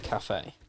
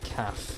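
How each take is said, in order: First: The word is said with two syllables. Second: The word is said as one short syllable. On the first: "as opposed to cafe" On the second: "I say calf"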